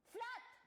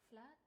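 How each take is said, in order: First: It is said in an angry tone. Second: It is said in a disappointed tone.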